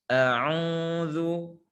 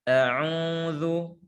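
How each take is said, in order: The two takes are said the same way.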